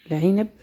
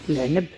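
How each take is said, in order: First: العنب with an i after the ayn, 'inab; standard Arabic pronunciation. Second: العنب as l-'neb, ayn straight into n; Moroccan pronunciation. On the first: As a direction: say "العنب" as l-'i-nab. (نطق العنب بالفصحى، بكسر العين) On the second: (نطق العنب بالمغربية، بتسكين العين) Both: Shown as a demonstration. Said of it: "باللهجة المغربية".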